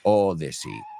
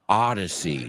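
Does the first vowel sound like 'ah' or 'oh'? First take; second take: oh; ah. First: The first vowel is a rounded 'oh' sound. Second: The first vowel is an open 'ah' sound. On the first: The speaker calls it wrong. "not Odyssey" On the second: The speaker calls it right. "Ah, ah, not Odyssey"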